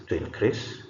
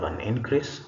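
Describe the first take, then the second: First: To inCREASE, verb stress; stress on second syllable. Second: An INcrease, noun stress; stress on first syllable. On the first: Teacher reads the bold verb, second-syllable stress on "increase". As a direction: hit "crease" in "to increase". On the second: Teacher reads the bold noun, first-syllable stress on "increase". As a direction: hit "in" in "an increase". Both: Shown as a demonstration. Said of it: "emphasis is going to be on the words".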